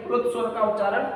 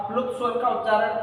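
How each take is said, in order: Both takes have the same delivery.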